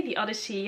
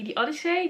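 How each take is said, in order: First: Settling on "the Odyssey", softer and falling; Odyssey retried softer. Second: "the Odyssey" with a high rising pitch, trying a British sound; testing how "the Odyssey" should sound, rising up; Odyssey said several ways. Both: Shown as a demonstration. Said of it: "how do I say it in an English accent?".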